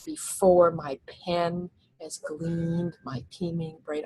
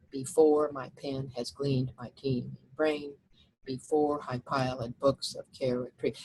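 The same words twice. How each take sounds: First: Very slow, "pen", "gleaned", "teeming" and "brain" each accented; scanning the stresses. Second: Reading verse aloud. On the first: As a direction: lean on every important word, slowly. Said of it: "All those seem to be important words as well". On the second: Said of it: "look at the first, first line". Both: Shown as a demonstration.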